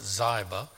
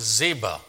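First: "Ziba" said as ZY-buh; alternative pronunciation. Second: Said in the usual way. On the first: Shown as a demonstration. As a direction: say "Ziba" with a long i, like eye. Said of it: "Some would pronounce it". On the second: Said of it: "Some would pronounce it Ziba".

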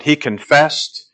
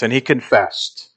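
First: Slow, weighty stress on "He confessed"; emphatic, slow. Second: Said in the usual way. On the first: Shown as a demonstration. Preacher stressing John's confession, slow and emphatic. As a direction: lean hard on "He confessed", drawn out. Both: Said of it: "and it's emphatic".

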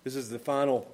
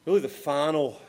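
First: Said in the usual way. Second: "really" lifted and pushed louder; stress on really. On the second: Shown as a demonstration. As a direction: lean into "really".

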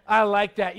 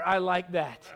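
First: Louder, relishing the sweet smell; God savoring the offering, said louder. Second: Said in the usual way. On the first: Retold or imitated. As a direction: lean in and say I like that louder, delighted. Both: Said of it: "And the Lord's going".

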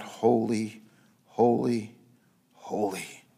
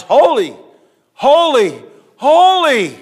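First: Low, soft, fading holy; hushed reverent holy. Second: Each holy higher and louder; building shout of holy. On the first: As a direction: breathe the three holies low and softly. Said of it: "And they cried out". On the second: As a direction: climb to a ringing shout on the last holy. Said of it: "to show how important it is". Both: Acted.

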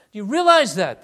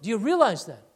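First: Loud, punchy question with weight on realize; emphatic question. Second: Said in the usual way. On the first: Real, not acted. Preacher presses congregation with a loud realize.

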